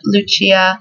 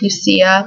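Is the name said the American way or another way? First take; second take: another way; American. First: The name is said in a non-American pronunciation. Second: The name is said in the American pronunciation. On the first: "I love the pronunciation Lucia" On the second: "in the U S it would probably get pronounced Lucia"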